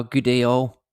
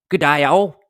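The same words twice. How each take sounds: First: Said in the usual way. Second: Hammed-up Australian g'day; amateur attempt at an Australian accent; Aussie accent. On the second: Shown as a demonstration. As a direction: put on a rough Aussie accent. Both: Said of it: "That's my Aussie accent".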